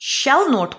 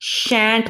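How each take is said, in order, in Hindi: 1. यह दो पूरे शब्दों के रूप में बोला जाता है। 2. यह एक संकुचित शब्द के रूप में बोला जाता है।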